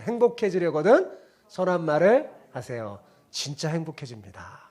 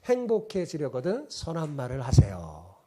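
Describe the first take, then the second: First: Call and response. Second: Said in the usual way. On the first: Shown as a demonstration. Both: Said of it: "따라해보세요".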